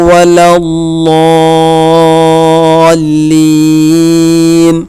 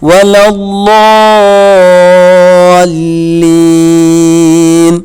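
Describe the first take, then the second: No difference in how they are said.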